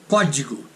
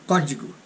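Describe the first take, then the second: No difference in how they are said.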